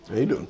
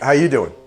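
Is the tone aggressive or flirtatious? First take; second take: flirtatious; aggressive. First: It is said in a sexy, flirtatious tone. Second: It is said in an aggressive, tough-guy tone.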